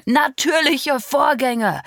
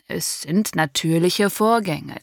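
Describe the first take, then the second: First: Much higher, louder, slow mocking echo of Natürliche Vorgänge; furious echo. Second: Slow, level calm explanation of natürliche Vorgänge; calm, rational. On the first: Father angrily echoing the doctor's phrase. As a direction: throw the doctor's words back in rage. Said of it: "echote mein Vater wütend". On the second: Acted. Doctor calmly reasoning with the angry father. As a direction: keep it measured and soothing. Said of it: "bitte versuchen Sie, die Sache rational zu betrachten".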